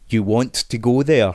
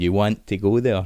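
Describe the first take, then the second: First: The t sounds are fully pronounced. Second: The t sounds are replaced by glottal stops. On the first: "enunciating T's" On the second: "where we use a glottal stop"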